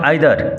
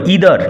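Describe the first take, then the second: First: The word begins with an 'eye' sound. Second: The word begins with an 'ee' sound. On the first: The speaker calls it wrong. "নট" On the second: The speaker calls it right. "উচ্চারণ লক্ষ্য করো"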